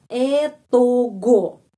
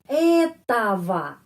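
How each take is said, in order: First: The word is read letter by letter with g. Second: The ending is pronounced with v and a vowels. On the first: It is how a young child reads it. "Kalau kita membaca etogo, boleh juga. Tapi boleh di mana ya? Di kelas S D satu boleh" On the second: It is how adults say it. "jadi ogo selalu bacanya ava"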